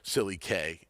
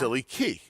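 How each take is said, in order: First: The last syllable sounds like the letter K. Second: The last syllable sounds like the word key. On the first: It makes a joke rhyming with two K. The speaker calls it wrong. "I was going to get cute with Silly K is two K" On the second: It is the name as the owners intended. The speaker calls it right. "I was told that it is"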